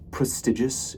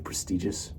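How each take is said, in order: First: Prestigious as pres-TIDGE-us; prestigious, middle syllable rhyming with ridge; prestigious with short i. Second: Said in the usual way. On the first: Shown as a demonstration. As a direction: say prestigious with the i of bridge. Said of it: "I like to say". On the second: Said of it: "instead of prestigious".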